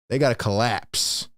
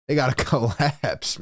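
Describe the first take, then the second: First: Said in the usual way. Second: A laugh breaks into collapse; amused, laughing at the collapse. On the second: Real, not acted. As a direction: chuckle through the words. Laughing at the team's fate.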